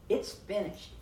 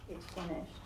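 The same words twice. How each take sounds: First: It is said in a triumphant, exultant tone. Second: It is said in a weary, deflated tone. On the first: A great work has been victoriously completed. The speaker calls it right. "That's triumph" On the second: Something painful has merely come to an end. The speaker calls it wrong. "That was not"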